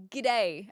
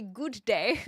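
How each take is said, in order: First: "g'day" run together, first vowel swallowed; attempted g'day. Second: "good day" as two separate full words; fully pronounced "good day". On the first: Streamer showing what she can't say, attempted clipped "g'day". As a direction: squash "g'day" into a quick Aussie greeting. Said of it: "I can't even say g'day". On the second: Streamer showing her own way, "good day" fully pronounced. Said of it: "I say good day". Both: Shown as a demonstration.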